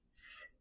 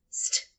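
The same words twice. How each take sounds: First: "st" as a long S, pause, then T; separate sounds. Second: "st" run together as one sound; consonant blend. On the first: Teacher showing a consonant blend, "st" sound by sound. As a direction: keep the two sounds of "st" apart. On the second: Teacher showing what it becomes, "st" blended tight. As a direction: say S and T of "st" closely together. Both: Shown as a demonstration. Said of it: "say the sounds really closely together".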